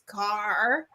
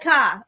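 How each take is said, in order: First: The word is said slowly and carefully. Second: The word is shouted in an angry voice. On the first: "if I'm really trying to, like, pronounce it, it's "car."" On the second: "but if I'm mad, it's like"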